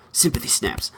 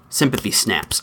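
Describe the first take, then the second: First: A breathless mock whisper, much softer; whispered aside. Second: Said in the usual way. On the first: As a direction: hush the phrase like a secret joke. Mock whisper after the parody.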